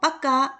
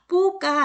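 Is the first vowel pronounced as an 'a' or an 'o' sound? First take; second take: a; o. First: The first vowel sounds like an 'a'. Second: The first vowel sounds like a full 'o'. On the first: The speaker calls it right. "빠까 말합니다" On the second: The speaker calls it wrong. "뽀까 아니고"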